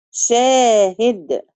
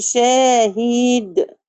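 First: شاهد slow, the i short; correct short kasra. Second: شاهد with the i stretched long; the wrong example with held i; شاهد, long i on the هاء; wrong long kasra. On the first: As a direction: say شاهد with a half-length i. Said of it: "لا، شاهد". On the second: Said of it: "ما ينفعش اقول شاهد". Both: Shown as a demonstration.

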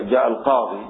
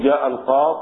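First: القاضي ending in a long ee; final ya kept. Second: القاض ending without the long ee; final ya dropped. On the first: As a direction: sound the ya at the end of القاضي. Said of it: "بالياء". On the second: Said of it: "تحذف إيش؟ الياء". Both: Shown as a demonstration.

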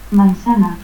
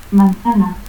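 First: Manzana as "mansana"; seseo. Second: Said in the usual way. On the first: Shown as a demonstration.

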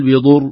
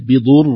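First: "بضر" without doubling the ra; "بضر" cut short, ra not doubled; wrong, single ra. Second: "بضر" with a held, doubled ra. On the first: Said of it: "لا نقول". (خطأ بلا تشديد) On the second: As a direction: hold the ra of "بضر" for two beats. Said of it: "هكذا حتى يظهر التشديد". (إظهار التشديد) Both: Shown as a demonstration.

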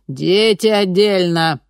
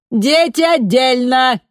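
First: Louder, slow, firm repeat; firm repeated order. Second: High, loud, slow command; commanding megaphone order. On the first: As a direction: repeat it, calm and final. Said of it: "повторяла женщина". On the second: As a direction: bark the order at the crowd. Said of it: "приказала женщина". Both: A narrator's reading.

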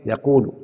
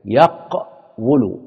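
First: يقول said normally as yaqūlu, a long u and no sounded waw; changed form. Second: يقول stretched very slowly as yaqwulu, the waw sounded with damma; drawn-out original form. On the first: Teacher giving the result after the vowel moves, plain yaqūlu. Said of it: "فصارت إيه؟". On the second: Teacher showing students the original form, very slow yaqwulu. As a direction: spell out يقول syllable by syllable as yaqwulu. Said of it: "شوف انتبه كده". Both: Shown as a demonstration.

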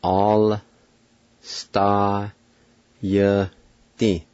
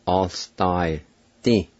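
First: "All star ye ti" broken into long, separate sounds; "All star ye ti" stretched apart for learners; syllable-by-syllable demo. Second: "All star ti" with the sounds blended, short final "ti"; "All star ti" more joined, still careful; joined-up pronunciation demo. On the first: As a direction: sound out "All star ye ti" slowly, pausing after each piece. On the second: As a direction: run "All star" together, then a short "ti". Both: Shown as a demonstration. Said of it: "it's pronounced like this".

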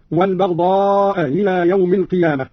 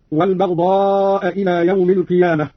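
First: "إلى" started between hamza and haa; softened second hamza. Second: Said in the usual way. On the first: Shown as a demonstration. Teacher demonstrating Qalun's reading, hamza of "إلى" softened. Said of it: "بتسهيل الهمزة الثانية بين الهمزة". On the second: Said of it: "قرأ قالون بتسهيل الهمزة الثانية".

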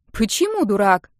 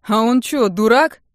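First: Puzzled. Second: Put-on loud scoffing teen; mocking. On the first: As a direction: ask in baffled surprise. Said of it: "не поняли девушки". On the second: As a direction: scoff it loudly. Bald teen mocks the fans. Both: A narrator's reading.

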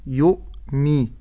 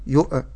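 First: "يؤمي" with a clean silent stop before mi; still hamza. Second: "يؤ" with a bouncing echo after the glottal stop; bounced hamza. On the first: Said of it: "ولكن أقول يؤمي". ("يؤمي" بهمزة ساكنة) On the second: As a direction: release "يؤ" with a qalqala bounce. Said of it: "أجعل فيها قلقلة". ("يؤ" بقلقلة الهمزة) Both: Shown as a demonstration.

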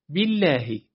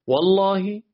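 First: بالله with a thin, clear L; light lam. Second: والله, higher, with a thick dark L; heavy lam. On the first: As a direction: keep the L of بالله light and fronted. (لامِ بالله نازک) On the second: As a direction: fill out the L of والله. (لامِ والله درشت و پر) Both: Shown as a demonstration.

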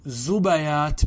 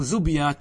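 First: First زبيات as "zubayaat", short a after ب; careful "zu-ba-yaat" for زبيات; fatha on second letter. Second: Second زبيات as "zubyaat", no vowel after ب; careful "zub-yaat" for زبيات; sukun on second letter. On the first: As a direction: say زبيات with u on ز, then a on ب. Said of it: "بالفتح". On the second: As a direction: say زبيات in two syllables, ب closing the first. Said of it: "بالسكون". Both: Shown as a demonstration.

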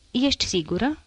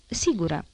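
First: „Ești sigură?” as a question, rising at the end. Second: „Sigură.” as an answer, falling at the end; confirming. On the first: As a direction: ask „Ești sigură?” on a higher pitch. Husband questions, wife confirms. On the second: Wife confirms the question. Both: A narrator's reading.

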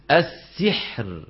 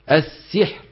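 First: "السحر" with the ha leaning toward a kasra, slow; kasra-tinged ha. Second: "السحر" ending without a ra; dropped ra. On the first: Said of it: "ما تقولوا السحر". (حاء مكسورة في "السحر") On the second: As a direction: swallow the last ra of "السحر". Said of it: "بده يقول السحر". (حذف الراء من "السحر") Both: Shown as a demonstration.

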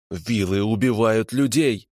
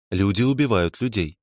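First: Slow, seething hiss; hissed accusation. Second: Said in the usual way. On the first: A narrator's reading. Prisoner accuses vilas of killing people, hissing. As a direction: hiss it out slowly. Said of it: "прошипел он".

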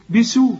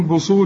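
First: بسو with thin s, "bisu", higher; plain light seen. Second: بصو with heavy s, "boso"; seen turned sad. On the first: Shown as a demonstration. Teacher corrects the student, thin seen. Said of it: "هي سين". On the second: Retold or imitated. Teacher questions the student's reading, heavy sad. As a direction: imitate a student thickening بصو. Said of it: "أمال بتقول بصو ليه؟".

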